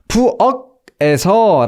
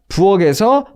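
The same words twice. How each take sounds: First: The final consonant is cut off from the vowel. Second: The final consonant flows into the next vowel. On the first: The speaker calls it wrong. "끊어 읽지 않으실 거고요" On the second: The speaker calls it right. "제 발음 자연스럽잖아요"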